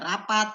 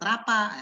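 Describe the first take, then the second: First: The final t sound is pronounced. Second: The final t sound is dropped. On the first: The speaker calls it right. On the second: The speaker calls it wrong.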